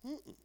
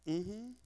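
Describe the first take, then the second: First: Soft, higher-pitched negative hum; sung, imitate a quiet no without words; refusing hum. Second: Short affirmative hum, acting out a nod of agreement; sung, imitate a quiet yes without words; agreeing hum. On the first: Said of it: "Then the men come by and whisper, and you go". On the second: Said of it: "whispering in your ear, and, and, and, you, you go".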